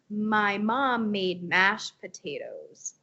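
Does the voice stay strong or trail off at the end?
trails off. The voice fades and goes creaky at the end. The speaker calls it wrong.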